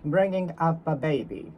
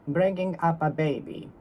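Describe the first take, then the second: No difference in how they are said.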